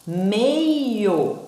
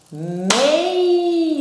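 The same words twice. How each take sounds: First: Said in the usual way. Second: Meio split into two syllables, higher and sung out; teacher clapping syllables; syllable clap. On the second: Shown as a demonstration. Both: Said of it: "duas palmas, duas sílabas".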